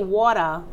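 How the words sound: The word is said in a Bronx accent. This is how people from the Bronx say it. "that's how we say water"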